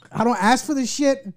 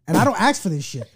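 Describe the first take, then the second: First: Laughing through the words. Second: Said in the usual way. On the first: Real, not acted. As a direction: crack up while saying it. Repeats punchline, laughing.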